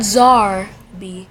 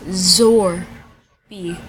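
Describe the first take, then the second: First: The first vowel sounds like 'ar'. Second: The first vowel sounds like 'or'. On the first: The speaker calls it wrong. "not Zar B" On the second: The speaker calls it right. "it's Zor B"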